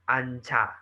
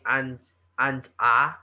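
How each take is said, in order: First: The final consonant carries over into the next syllable. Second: The syllables are said separately without linking. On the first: The speaker calls it right. "it's anja" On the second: The speaker calls it wrong. "instead of saying an anja"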